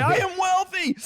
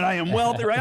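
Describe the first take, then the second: First: I am wealthy squeaked very high; mock the affirmation in a high squeaky voice; exaggerated high affirmation. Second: Hammed-up affirmation. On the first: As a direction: overblown high-pitched chant of self-belief. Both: Shown as a demonstration. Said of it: "Let me hear you affirm it".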